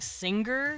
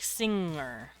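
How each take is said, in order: First: A hard g is sounded after the ng. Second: The ng runs into the vowel without g. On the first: The speaker calls it wrong. "instead of saying singer" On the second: The speaker calls it right. "you would say like singer. You wouldn't pronounce the G"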